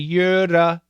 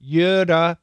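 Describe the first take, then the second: No difference in how they are said.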